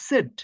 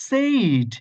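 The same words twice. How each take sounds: First: "said" as a short SED; correct pronunciation. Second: "said" stretched to a loud SAAYD; long exaggerated AY in "said"; wrong pronunciation. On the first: Teacher puts said after a student's name, correct pronunciation. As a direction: clip the vowel of "said" to short e. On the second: Teacher shows what not to say, wrong pronunciation. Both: Shown as a demonstration. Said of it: "not said".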